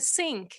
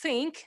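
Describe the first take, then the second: First: It begins with a hissing s sound. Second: It begins with a soft th sound. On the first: "so the third sound becomes uh, s" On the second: "concerning the word think"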